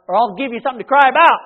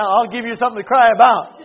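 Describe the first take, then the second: First: Louder, fast warning to a misbehaving son; stern parent threat. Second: Louder, recalled stern parent line; remembered parent threat. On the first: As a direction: bark it like a fed-up dad. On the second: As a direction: echo the old family threat with force. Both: Retold or imitated.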